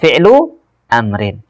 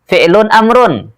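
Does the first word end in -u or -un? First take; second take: -u; -un. First: The words end in -u and -in. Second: The words end in -un and -un. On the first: The speaker calls it right. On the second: The speaker calls it wrong. "Jangan bilang fi'lun amrun"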